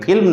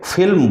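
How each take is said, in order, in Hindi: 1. पहली ध्वनि दोनों होठों से बनती है। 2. पहली ध्वनि होंठ और दाँत से बनती है। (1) "दोनों होठों में मिलाना नहीं है, फिल्म नहीं बोलना" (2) "बल्कि इसे फिल्म बोलना है"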